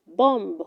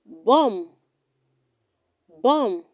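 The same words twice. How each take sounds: First: Bomb with a sounded final b; wrong pronunciation. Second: Bomb said as "bom"; correct pronunciation. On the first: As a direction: finish bomb on an audible "b". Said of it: "do not say bomb". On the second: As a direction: end bomb on the m, silent b. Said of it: "It is pronounced". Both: Shown as a demonstration.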